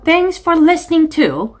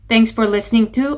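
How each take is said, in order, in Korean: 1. 감정을 실어 표현력 있게 말하고 있습니다. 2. 감정 없이 밋밋하게 말하고 있습니다. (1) "이렇게 감정 실어주시고요" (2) "이거 말고"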